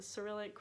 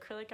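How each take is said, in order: First: Cyrillic with a soft S, "suh-RILL-ik"; alternative pronunciation. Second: Cyrillic squeezed into "KRILL-ik"; unsure pronunciation. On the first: Trying another way to say it, Cyrillic as "suh-rillik". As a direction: say Cyrillic in three syllables, starting "suh". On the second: Guessing how you say it, Cyrillic as "krillik". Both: Shown as a demonstration. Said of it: "I think that's how you say it".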